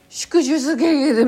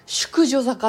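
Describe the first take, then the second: First: The consonants are slurred and the word comes out garbled. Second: The consonants are crisp and the word comes out clear. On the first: The speaker calls it wrong. "淑女づけげるみたいな風になっちゃう" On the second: The speaker calls it right. "淑女坂っていう風にすると、うまくいく"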